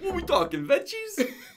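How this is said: It is said in a put-on Italian accent.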